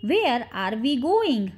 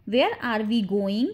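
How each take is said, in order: First: Slow, measured teaching pace; slow model repeat. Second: Said in the usual way. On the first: Shown as a demonstration. Teacher repeats the question for English learners, slowly.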